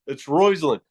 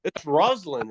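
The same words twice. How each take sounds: First: "Roislyn" said ROYZ-lin; "Roislyn" stressed on a clear ROYZ; corrected pronunciation. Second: "Rosalind" said with an ah, ROZ-lind; teasing wrong take on "Rosalind", ROZ not ROYZ; mock mispronunciation. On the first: Shown as a demonstration. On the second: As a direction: say "Rosalind" with a plain open first vowel. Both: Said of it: "Say it right".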